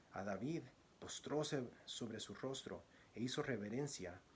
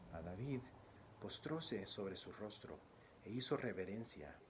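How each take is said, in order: Both takes have the same delivery.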